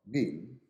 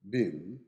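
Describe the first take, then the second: First: It is said with an American or British accent. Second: The same.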